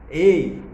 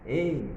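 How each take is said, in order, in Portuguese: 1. É dita com força, em tom de comando. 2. É dita suavemente, sem força. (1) "Ele usou uma voz de comando, ele usou um tom" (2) "ele não pronunciou assim"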